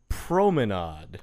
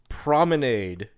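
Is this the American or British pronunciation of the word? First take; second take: British; American. First: The word has a British pronunciation. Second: The word has an American pronunciation. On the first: "In the U.K., promenade" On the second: "in the U.S., promenade is how one would pronounce it"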